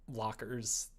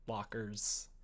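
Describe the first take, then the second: No difference in how they are said.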